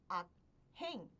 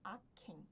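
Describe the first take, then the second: First: The consonant and h are said separately. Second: They merge into one aspirated consonant. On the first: The speaker calls it wrong. "Ao invés de pronunciar como aken" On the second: The speaker calls it right. "teve som de kyut"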